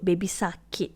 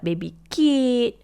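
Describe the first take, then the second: First: Every syllable of both words is pronounced. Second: Only the last syllables of each word are pronounced. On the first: The speaker calls it right. "kalau dia nak sebut baby sakit tu" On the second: The speaker calls it wrong. "dia cakap hujung-hujung saja"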